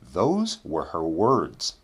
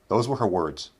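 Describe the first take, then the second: First: The sentence is spoken at a slow pace. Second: The sentence is spoken at a quick pace. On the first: "first we'll say them slowly" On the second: "then we'll say them quickly"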